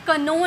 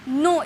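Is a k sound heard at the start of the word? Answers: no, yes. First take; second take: yes; no. First: The word starts with a k sound before n. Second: The word starts directly with an n sound. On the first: The speaker calls it wrong. "इसे कनो नहीं पढ़ेंगे" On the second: The speaker calls it right. "नो means जानना"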